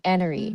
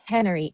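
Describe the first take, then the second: First: "enery" said with no H, starting on the vowel, ending in a rise; Cockney "enery" with the H gone; dropped H. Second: Said in the usual way. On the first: Shown as a demonstration. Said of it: "enery," not "Hennery".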